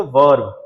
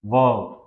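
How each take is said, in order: First: वर्ब with a clear R; American verb. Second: वर्ब with no R sound, like वब; British verb. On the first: Teacher showing students the American वर्ब with R. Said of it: "आर clear and loud". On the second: Teacher showing students the British वर्ब without R. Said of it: "यानी हम इसको पढ़ते हैं H". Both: Shown as a demonstration.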